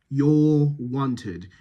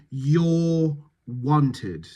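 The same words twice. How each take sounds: First: "You're" with strongly rounded lips, "wanted" medium rounding; rounded vowels. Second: Said in the usual way. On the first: Shown as a demonstration. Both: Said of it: "round those lips here".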